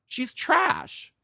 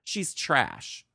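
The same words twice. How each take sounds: First: She's trash. with trash jumped much higher; high exclaim. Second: Said in the usual way. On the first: Shown as a demonstration. Repeating the insult about the manager, pitched much higher. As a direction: fling trash up high in scorn.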